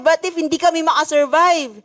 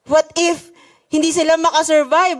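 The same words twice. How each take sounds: First: Kami leaned on, falling tune after; stress on kami. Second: Sila lifted and leaned on; stress on sila. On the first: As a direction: press the word kami, then let it fall. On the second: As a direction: hit the word sila, worried. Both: Real, not acted. Worried what-ifs, stressing who.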